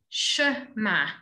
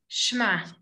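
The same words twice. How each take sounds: First: A short vowel is heard after the first sound. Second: The first sound slurs straight into the next.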